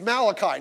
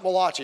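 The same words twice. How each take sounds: First: It is said the usual English way. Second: It is said like an Italian name. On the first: The speaker calls it right. "It's Malachi" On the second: The speaker calls it wrong. "not Malachi, ... I thought there was an Italian guy"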